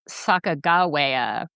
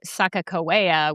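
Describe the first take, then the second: First: The consonant before -awea is a G sound. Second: The consonant before -awea is a K sound. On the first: It follows another version of her history. "Sacagawea with a G instead of a J" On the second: It follows the Hidatsa version of her history. "The Hidatsa say Sacagawea with two Ks"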